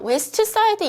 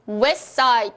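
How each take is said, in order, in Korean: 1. 'West'의 t는 발음돼요. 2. 'West'의 t는 탈락돼요. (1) "이렇게 발음을 안 하고요" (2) "T가 생략이 됐습니다"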